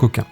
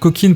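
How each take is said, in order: First: The name ends with a nasal vowel, no 'n'. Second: The name ends with a clearly pronounced 'n' sound. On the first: The speaker calls it right. "en réalité pour le marché français on prononce Coquin" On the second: The speaker calls it wrong. "tu m'entendras dire coquine pendant toute la vidéo"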